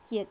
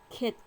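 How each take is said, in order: First: The vowel starts with a y glide, like ye. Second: The vowel is a plain e without a glide. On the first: The speaker calls it wrong. "Некоторые так читают кет, кет. Это неправильно" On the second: The speaker calls it right. "Надо правильно читать кет"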